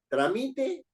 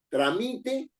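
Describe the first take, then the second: First: The stress is on the middle syllable. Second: The same.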